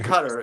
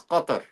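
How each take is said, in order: First: The first sound is a plain English k. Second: The first sound is deep and guttural. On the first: This is how Western media and officials say it. The speaker calls it wrong. "It's not Qatar. It's not how these American generals ... pronounce it" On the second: This is how people from the region say it. The speaker calls it right. "If you really want to say it properly, it's Qatar. ... But it's very guttural"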